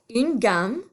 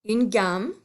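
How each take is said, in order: Both takes have the same delivery.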